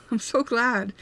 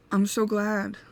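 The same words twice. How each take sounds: First: Glad words through a laugh; real happy laugh on the words; laughing with relief. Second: Said in the usual way. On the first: Real, not acted.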